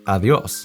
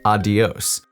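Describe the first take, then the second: First: The middle consonant is a soft TH sound. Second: The middle consonant is a hard D sound. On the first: The speaker calls it right. "the D between two vowels has more of a T H sound" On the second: The speaker calls it wrong. "pronounce it like adios with a D sound"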